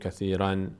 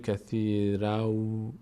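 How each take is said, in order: First: The word ends with an n sound. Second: The word ends with a w sound. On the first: The speaker calls it wrong. "اینجا دیگه نمیگیم کثیرن" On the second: The speaker calls it right. "این تنوین باید به جای نون واو تلفظ بشه"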